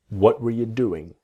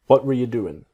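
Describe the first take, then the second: First: The phrase is said at a slower pace. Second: The phrase is said at a faster pace.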